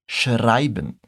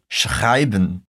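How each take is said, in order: First: The R is made with the tongue tip. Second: The R is a gargled sound in the throat. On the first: "o R é feito na ponta da língua" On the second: "aquele som de R, lá da garganta"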